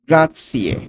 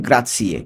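First: গ্রাৎসিয়ে said with a clear ts sound, not z; careful pronunciation. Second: গ্রাৎসিয়ে with ts, not an English z. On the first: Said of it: "গ্রাৎসিয়ে উচ্চারণটা খেয়াল করুন". (গ্রাৎসিয়ে স্পষ্ট ts ধ্বনিতে) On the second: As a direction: repeat গ্রাৎসিয়ে stressing the ts. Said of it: "জেড আছে কিন্তু উচ্চারণ হবে গ্রাৎসিয়ে". (জেড নয়, ts দিয়ে গ্রাৎসিয়ে) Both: Shown as a demonstration.

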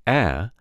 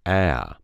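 First: Said in the usual way. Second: "a" stretched into a diphthong; two-stage Alabama vowel. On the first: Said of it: "vowel turns into a diphthong". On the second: Shown as a demonstration. Coach showing the changed vowel, "a" as a two-stage diphthong. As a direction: glide "a" through two stages, Alabama style. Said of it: "a two-stage syllable. It becomes".

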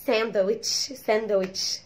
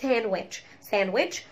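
First: "ساندويتش" as san-da-witch in Egyptian accent. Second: "ساندويتش" as SAN-wetch, no d; English silent d. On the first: Teacher showing our local way, Egyptian accent "ساندويتش" with d. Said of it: "عندنا احنا بالايجيبشن اكسنت". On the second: Teacher giving the English form, "ساندويتش" with silent d. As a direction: say "ساندويتش" in two syllables without d. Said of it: "بالانجليش اسمها". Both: Shown as a demonstration.

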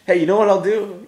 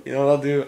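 First: High, loud sudden idea; excited idea. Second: Said in the usual way. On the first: Real, not acted. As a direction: perk up with a bright idea.

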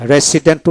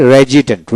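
First: "রেসিডেন্ট" with an "s" in the middle; common pronunciation. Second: "রেজিডেন্ট" with a voiced "z/j" in the middle; dictionary pronunciation. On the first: Teacher quoting how it is commonly pronounced, common pronunciation. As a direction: say "রেসিডেন্ট" as re-si-dent. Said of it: "রেসিডেন্ট উচ্চারণ করা হয়". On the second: Teacher giving learners the dictionary form, dictionary pronunciation. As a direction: say "রেজিডেন্ট" as re-ji-dent. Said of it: "কিন্তু ডিকশনারিতে রেজিডেন্ট". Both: Shown as a demonstration.

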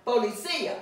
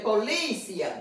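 First: "Policía" with stress on CÍ, the í its own syllable; stress on the accented í. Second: "policia" with LI stressed and the ending run together; stress on second syllable. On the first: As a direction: lean on the CÍ in "Policía". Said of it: "It has an accent mark". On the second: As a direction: hit the LI in "policia". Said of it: "that's not the way we're gonna pronounce it". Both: Shown as a demonstration.

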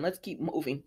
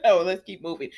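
First: Muttered softly; soft mutter "Let's keep moving" before a laugh; quiet aside. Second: "Oh, let's keep moving" said out, louder and brisk; brisk louder move-on. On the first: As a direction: drop it under your breath, moving on. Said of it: "moving on". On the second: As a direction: shake off the laugh and push on. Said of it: "moving on after laughing". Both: Real, not acted.

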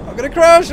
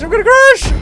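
First: Panicked shout. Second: Higher, louder second cry; louder panicked shout. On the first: Repeated panic line. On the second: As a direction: push the panic further. Repeated louder. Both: Real, not acted.

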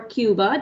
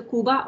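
First: "Cuba" said English-style as KYOO-buh; English pronunciation. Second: "Cuba" said Spanish-style as KOO-bah; Spanish pronunciation. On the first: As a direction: say "Cuba" with a y glide after the K. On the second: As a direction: say "Cuba" with a plain oo, no y sound. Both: Shown as a demonstration. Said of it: "depending on how you want to say it".

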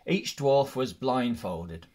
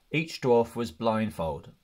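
No difference in how they are said.

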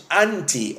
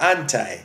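First: "anti" ending in ee; anti as "AN-tee". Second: "anti" ending in eye; anti as "AN-tie". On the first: Preacher naming the Greek word, "anti" said AN-tee. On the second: Preacher naming the Greek word, "anti" said AN-tie. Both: Shown as a demonstration. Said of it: "depending on how you want to pronounce it".

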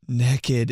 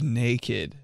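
First: "naked" said as "neckid"; short eh in the first syllable of "naked"; mispronounced naked. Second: Said in the usual way. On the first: Retold or imitated. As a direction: say "naked" like neck-id. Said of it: "Andrew says naked instead of". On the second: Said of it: "instead of naked".

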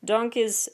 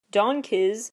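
First: Donkiz said higher, closing on a flat falling tune. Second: Donkiz with a rising, doubtful tune, pitched higher and louder; questioning rise on Donkiz. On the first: Vlogger repeating the name to move on, Donkiz with a falling tune. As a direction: state Donkiz flatly as a settled fact. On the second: Vlogger doubting a group's name, Donkiz with a questioning rise. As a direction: ask Donkiz like you can't believe the name. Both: Acted.

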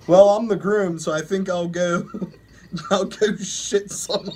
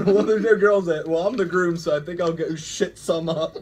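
First: Reading aloud, words breaking into laughter; trying to read through the giggles; reading while laughing. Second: Laughing hard through the reading; words squeezed out between laughs; reading while laughing. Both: Real, not acted. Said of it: "I'm gonna do awful with these stories".

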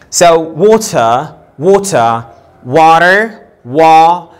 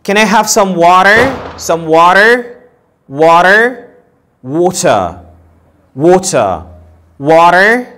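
First: Water said with an open wa; open mouth demo. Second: Water said rising and clearly; model water. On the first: Teacher shows the open vowel of water. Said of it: "There's a bit opening the mouth". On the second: Teacher models the final water. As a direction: say water with the open rounded vowel. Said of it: "في فرق". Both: Shown as a demonstration.

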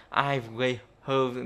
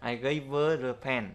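First: Slow, "I gave her" with a breathy H in "her"; teacher shows the hard unlinked way, slowly; unlinked demo. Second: "gave her a" smoothly run together; teacher reads the neat linked version for students; linked demo. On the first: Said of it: "như thế để đọc nó, nó lấy nhiều hơi lắm". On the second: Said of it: "nghe nó gọn gàng hơn". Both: Shown as a demonstration.

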